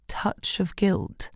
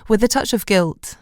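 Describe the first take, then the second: First: Scornful, slow repeat. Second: Said in the usual way. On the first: A narrator's reading. Narrator scoffs at own phrase.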